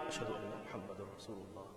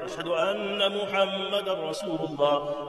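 First: It is said quietly. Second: It is said loudly.

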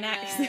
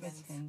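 First: It is said in a fake American accent. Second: It is said in a British accent.

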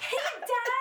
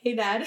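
First: It is said loudly and excitedly. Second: It is said quietly and blandly.

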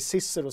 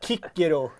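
First: The name begins with an S sound. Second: The name begins with a K sound. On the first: The speaker calls it wrong. "Att alla som går runt och säger Cicero säger fel" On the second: The speaker calls it right. "För att det uttalas med K"

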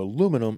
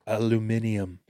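First: It is said in an American accent. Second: It is said in a British accent.

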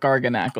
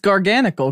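First: The ending sounds like 'nacle', as in barnacle. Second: The ending sounds like 'nical', as in technical. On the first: The speaker calls it wrong. "I really hope it's not Garganacle" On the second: The speaker calls it right. "because it's Garganical. Because Gargantuan"

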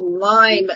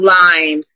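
First: The word ends without an s sound. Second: The word ends with an added s sound. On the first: The speaker calls it right. "it's called Lyme disease for those listening" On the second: The speaker calls it wrong. "not limes"

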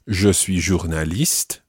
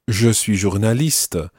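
First: The silent word endings are dropped. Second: The silent word endings are pronounced. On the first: "earlier, I said" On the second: "this lady says ... where you almost pronounce the silent endings"

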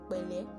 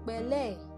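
First: It is said in a warm, sincere tone. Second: It is said in a mocking, insincere tone. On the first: Real sympathy is being offered. The speaker calls it right. "when you say the first one, obviously the person you are telling knows that you're offering your condolence" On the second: The sympathy is fake. The speaker calls it wrong. "one of these two is hypocritical"

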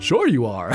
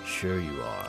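First: It is said in a lighter, normal voice. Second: It is said in a deep, gruff voice. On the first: He keeps up his public disguise. "In, like, the Bruce voice" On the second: He no longer hides his true identity. "In the Batman voice"

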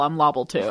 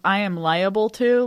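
First: The word is said as 'lobble', rhyming with wobble. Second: The word is said as 'liable', three syllables. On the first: "like it's always "I'm lobble," like L O B B L E, like wobble" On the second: "instead of "I am liable to,""

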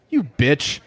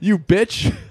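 First: It is said with lively, expressive inflection. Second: It is said flat, with no inflection.

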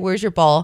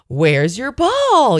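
First: The voice is soft and flat. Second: The voice is loud and lively. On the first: "in like the softest of voice, I have no inflection in my tone" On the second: "like really throwing it out there"

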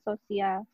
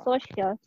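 First: The word is said with Indonesian sounds, so-si-al. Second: The word is said with English sounds, so-shal. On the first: "kalau kita kan sosial" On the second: "bahasa Inggris kan social"

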